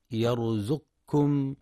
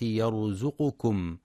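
First: يرزقكم with the ق silent, yarzuqkum; wrong silent q. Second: يرزقكم with the ق carrying a clear u, yarzuqukum. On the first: Teacher shows the wrong reading, ق left silent. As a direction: clip the vowel after ق in يرزقكم. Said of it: "فلا يقرأ يرزقكم بسكون القاف". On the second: Teacher shows the correct u after the ق. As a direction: say يرزقكم slowly, voicing the u after ق. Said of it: "لتحقيق ضم القاف". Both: Shown as a demonstration.

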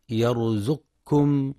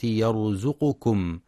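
First: يرزقكم with no vowel after the qaf, as yarzuqkum; wrong silent qaf. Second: يرزقكم with the qaf voweled u, as yarzuqukum, slow; damma on qaf. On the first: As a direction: demonstrate the error in يرزقكم: qaf run straight into kum. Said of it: "فلا يقرأ يرزقكم بسكون". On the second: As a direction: stretch يرزقكم so the u after qaf is clear. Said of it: "لتحقيق ضم القاف". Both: Shown as a demonstration.

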